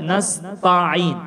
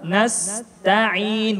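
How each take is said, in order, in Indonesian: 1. Bunyi t itu berat, lidah terangkat. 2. Bunyi t itu ringan, lidah turun. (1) "Ada yang mungkin yang membaca nasta'in" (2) "semuanya tipis. Jadi kita baca nasta'in"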